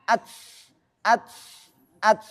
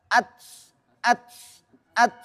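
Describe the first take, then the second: The two takes are said the same way.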